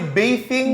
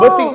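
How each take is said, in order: First: The middle consonant is a th sound. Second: The middle consonant is a plain t sound. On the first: This is the standard form of the word. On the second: This is the local way of saying it.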